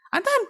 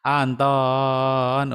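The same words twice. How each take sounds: First: The voice is high, thin and shrill. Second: The voice is low with a rolling, wavy pitch. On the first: The child's brain shuts down and ignores it. The speaker calls it wrong. "cempreng kan?" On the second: The message reaches the child's brain. The speaker calls it right. "Digelombangkan dan ada suaranya rendah"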